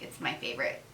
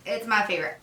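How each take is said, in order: First: Breathy whispered aside. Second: Said in the usual way. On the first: Shown as a demonstration. Whispering her favorite lotion to the viewer, hushed. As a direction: whisper it like a secret. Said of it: "whispered repeat of her verdict". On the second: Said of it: "plain repeat of her verdict".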